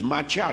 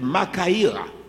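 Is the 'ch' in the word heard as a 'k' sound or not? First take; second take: not k; k. First: The 'ch' is not said as a 'k'. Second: The 'ch' is said as a 'k'. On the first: The speaker calls it wrong. "il y a des personnes qui disent macha, non, c'est pas vrai" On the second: The speaker calls it right. "H ne se prononce pas en grec"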